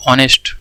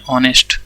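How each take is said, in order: First: ऑनेस्ट said slowly, starting straight on the vowel aw, no h; silent h in honest. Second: ऑनेस्ट said once more, opening on aw with no h; silent h in honest. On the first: (ऑनेस्ट, एच बिना बोले) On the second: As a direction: repeat ऑनेस्ट cleanly, with no h sound. (ऑनेस्ट का सही उच्चारण) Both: Shown as a demonstration. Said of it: "इस तरह से pronounce करते हैं".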